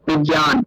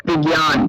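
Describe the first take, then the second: No difference in how they are said.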